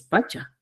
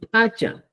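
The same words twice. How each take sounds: First: Pacha with a simple, soft p; pronunciación chanca. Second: Pacha with a forceful Cusco p; pronunciación cusqueña. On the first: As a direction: say pacha without popping the p. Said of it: "y aquí en Chanca decimos". (pacha chanca, con p simple) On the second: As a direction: pop the p in pacha. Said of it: "en Cusco decimos". (pacha cusqueño, con p fuerte) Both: Shown as a demonstration.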